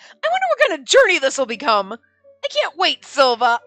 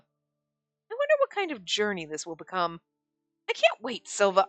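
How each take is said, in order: First: It is spoken outward to another person. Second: It is read as quiet private thought. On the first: The character says it out loud to someone. The speaker calls it right. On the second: The character is only thinking it. The speaker calls it wrong.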